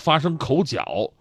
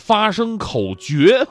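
First: 角 is read with its 'horn' reading. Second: 角 is read with its 'contest' reading. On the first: The speaker calls it wrong. "不叫发生口角" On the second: The speaker calls it right. "而应该叫做发生口角"

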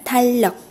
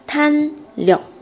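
First: The first syllable ends in an l sound. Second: The first syllable ends in a clear n sound. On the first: "那么变形后读成탄력" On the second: "不音变的时候是탄력"

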